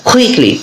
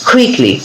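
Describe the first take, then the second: Both takes have the same delivery.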